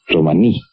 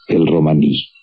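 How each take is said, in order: First: Romaní with the stress landing hard on the last syllable, ro-ma-NÍ; stress on the final I. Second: Said in the usual way. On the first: Shown as a demonstration. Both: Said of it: "con el acento en la I".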